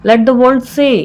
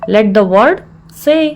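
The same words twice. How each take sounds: First: Said in the usual way. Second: Measured, with a clear mid-phrase pause; broken into parts. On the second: Shown as a demonstration. Teacher repeats the phrase for learners, in separated parts.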